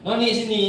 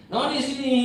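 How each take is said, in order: First: Put-on calling the girl, raised and louder; father calling his daughter, raised voice. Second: Father calls his daughter a second time, higher. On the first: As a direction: call her over from across the house. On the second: Retold or imitated. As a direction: call her again, more insistent. Calling again, higher.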